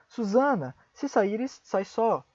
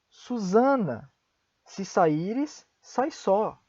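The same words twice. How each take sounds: First: The phrase is said at a faster pace. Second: The phrase is said at a slower pace.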